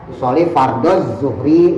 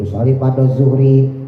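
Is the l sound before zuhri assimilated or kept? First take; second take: assimilated; kept. First: The l merges into a doubled z sound. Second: The l is heard plainly before zuhri. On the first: "pakai tasdid sama zuhur" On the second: "itu enggak merusak sholat"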